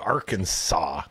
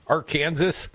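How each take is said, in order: First: Arkansas with a silent final S, ending in "saw"; standard pronunciation. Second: Arkansas said as ar-KAN-zus, like Kansas; alternative pronunciation. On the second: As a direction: rhyme the end of Arkansas with Kansas. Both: Shown as a demonstration. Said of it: "depending on how you pronounce it".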